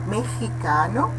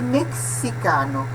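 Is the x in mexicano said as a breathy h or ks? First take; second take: breathy h; ks. First: The x is said as a breathy h. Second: The x is said as a ks sound. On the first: "a pronúncia aspirada" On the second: "Poderia pronunciar-se mexicano"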